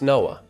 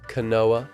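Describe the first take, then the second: First: The name starts without a K sound. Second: The name starts with a K sound. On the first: The speaker calls it right. "The K is silent" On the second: The speaker calls it wrong. "Everyone's initial pronunciation has been Kanoa"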